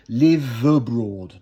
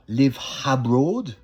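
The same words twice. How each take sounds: First: The V runs straight into the next vowel. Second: A break or h-like catch separates the words. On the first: The speaker calls it right. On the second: The speaker calls it wrong.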